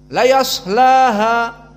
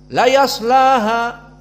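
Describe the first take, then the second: First: The s sound is cut short quickly. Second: The s sound is cut short quickly.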